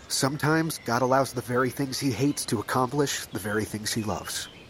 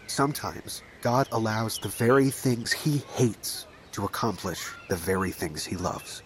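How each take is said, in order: First: It is said at a normal pace. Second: It is said more slowly.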